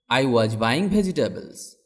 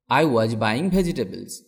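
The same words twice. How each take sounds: The two takes are said the same way.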